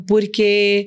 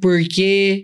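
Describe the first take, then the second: First: It has a São Paulo city accent. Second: It has a São Paulo countryside accent with curled R.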